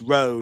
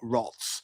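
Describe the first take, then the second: First: The word ends in a plain vowel sound. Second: The word ends with a 'ts' sound. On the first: The speaker calls it right. "that's how you pronounce it" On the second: The speaker calls it wrong. "not Rots"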